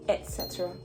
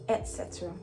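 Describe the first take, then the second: No difference in how they are said.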